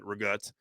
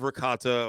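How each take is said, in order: First: It is said in the friend's New Jersey accent. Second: It is said in a standard American accent.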